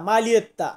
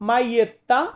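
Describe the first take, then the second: First: A clear L sound is heard in the middle. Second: No L sound is heard in the middle. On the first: The speaker calls it wrong. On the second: The speaker calls it right.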